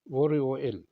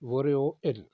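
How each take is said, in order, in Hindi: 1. l की आवाज़ आगे बढ़ती है और r जैसी सुनाई देती है। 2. l की आवाज़ आगे बढ़ती है और r जैसी सुनाई देती है।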